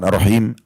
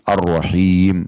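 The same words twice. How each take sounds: First: The vowel after the h is short. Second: The vowel after the h is long. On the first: The speaker calls it wrong. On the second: The speaker calls it right. "dibaca sedikit agak panjang"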